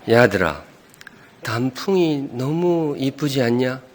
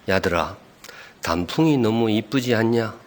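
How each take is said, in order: First: It is said in a moved, emotional voice. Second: It is said in a plain voice.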